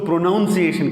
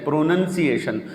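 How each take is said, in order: First: The second syllable sounds like 'noun'. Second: The second syllable sounds like 'nun'. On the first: The speaker calls it wrong. "कुछ लोग उसको प्रोनाउंसिएशन कहते हैं" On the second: The speaker calls it right. "ये प्रोनाउंसिएशन नहीं है"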